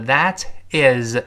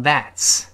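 First: Said in the usual way. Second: "that's" as one syllable ending in ts; contracted THAT'S. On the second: Shown as a demonstration. Teacher shows learners the short form, "that's" contracted. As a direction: run "that is" together into "that's". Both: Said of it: "在这儿缩略成that's".

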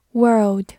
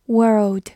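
Both takes have the same delivery.

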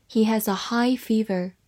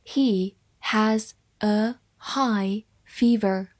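First: Said in the usual way. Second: Very slow, each word separated; slow read-along. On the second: Shown as a demonstration. Teacher models the fever sentence for students, slow and spaced out. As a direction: say it word by word for learners to follow. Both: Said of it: "慢慢来读".

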